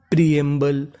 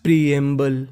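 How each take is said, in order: Both takes have the same delivery.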